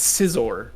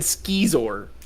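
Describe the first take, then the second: First: The word begins with a soft 's' sound. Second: The word begins with a hard 'sk' sound. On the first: The speaker calls it right. "It's scissor, like a pun on scissors" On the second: The speaker calls it wrong. "You said skizor"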